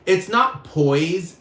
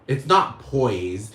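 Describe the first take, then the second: First: Slow, hit NOT hard and high in "it's not poise"; stress on not. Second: Slow and low, press on NOT in "It's not poise."; stress on not. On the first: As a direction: drag out "not" with a higher pitch. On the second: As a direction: lean on "not", lower and dragged. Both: Shown as a demonstration.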